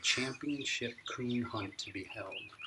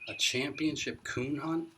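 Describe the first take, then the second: First: Slow, word by word, reading the big letters; slow headline reading. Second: Higher and louder, slow rising disbelief; can it really be true; amazed question. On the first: Boy reads the newspaper headline aloud, slow and deliberate. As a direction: read it out slowly, taking it in. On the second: Boy repeats the headline to grandpa, amazed. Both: A narrator's reading.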